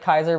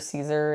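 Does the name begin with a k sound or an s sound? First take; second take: k sound; s sound. First: The name begins with a hard k sound. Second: The name begins with a soft s sound. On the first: "You like Kaiser" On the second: "you hear Caesar in the in the U S"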